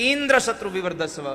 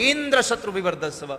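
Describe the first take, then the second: No difference in how they are said.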